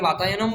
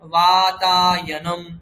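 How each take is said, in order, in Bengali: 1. দীর্ঘ স্বরগুলো দ্রুত ও ছোট করে বলা হয়। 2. দীর্ঘ স্বরগুলো একটু বেশি সময় ধরে রাখা হয়। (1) "আগে বাতায়নম বলতাম" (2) "এখন আমরা চেষ্টা করব বাতায়নম"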